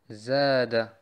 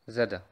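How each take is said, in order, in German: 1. Der erste Vokal wird lang gehalten. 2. Der erste Vokal ist kurz.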